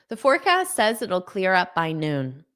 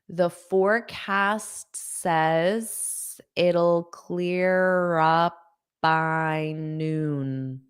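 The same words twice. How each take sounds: First: The sentence is spoken at a fast pace. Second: The sentence is spoken at a slow pace. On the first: "I'll say it fast" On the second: "I'll say it slowly"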